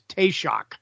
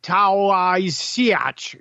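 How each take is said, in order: First: The word gets its native Irish pronunciation. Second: The word is read out literally, letter by letter. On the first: The speaker calls it right. "It's Taoiseach. That's how it's pronounced" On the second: The speaker calls it wrong. "Looks like Taoiseach"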